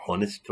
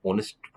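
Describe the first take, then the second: First: ऑनेस्ट with an audible H at the start; H wrongly sounded. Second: ऑनेस्ट with the H left silent. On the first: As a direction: mispronounce ऑनेस्ट as "hon-est", breathing out the H. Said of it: "ऑनेस्ट थोड़ी पढ़ते हैं". (ऑनेस्ट को "हॉनेस्ट" बोलें, H की आवाज़ के साथ) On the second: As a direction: start ऑनेस्ट straight on the O vowel, no H sound. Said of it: "ऑनेस्ट में एच साइलेंट है". (ऑनेस्ट, एच کی آواز کے بغیر) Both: Shown as a demonstration.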